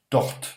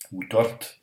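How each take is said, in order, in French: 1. Le R se prononce sans roulement. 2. Le R est roulé. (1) "Vous pourriez très bien dire tort" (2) "si vous pouvez rouler un petit peu ce R"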